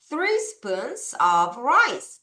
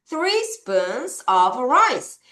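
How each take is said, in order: First: Very slow "Three spoons of rice"; slow lead reading; slow choral reading. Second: "three spoons of rice" drawn out; slow teacher repeat. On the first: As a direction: lead the class slowly. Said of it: "같이 한번 읽어볼까요". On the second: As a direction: repeat slowly. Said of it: "다시". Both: Shown as a demonstration.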